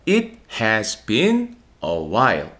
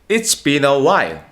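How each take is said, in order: First: The word 'has' is said in full. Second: The word 'has' shrinks to an s sound.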